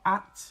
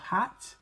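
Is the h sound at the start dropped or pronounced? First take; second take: dropped; pronounced. First: The word begins with no h sound. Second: The word begins with a clear h sound.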